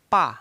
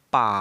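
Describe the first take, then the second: First: The pitch falls sharply from high to low. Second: The pitch dips down and rises again. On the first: "menekan dari atas ke bawah" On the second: "memantul dari atas ke bawah dan ke atas kembali"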